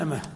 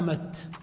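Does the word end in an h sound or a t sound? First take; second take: h sound; t sound. First: The word ends in an h sound. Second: The word ends in a t sound. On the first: This is the usage of most Arabs. "يعني أمة" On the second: This is the usage of some Arabs. "الوقف بالتاء"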